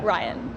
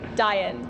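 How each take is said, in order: First: The name starts with a clear R sound. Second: The name starts without an R sound. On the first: This is how it is said now. The speaker calls it right. "But I'm I'm good now" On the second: This is how it was said as a child. The speaker calls it wrong. "I couldn't pronounce the letter R. ... I would say Diane"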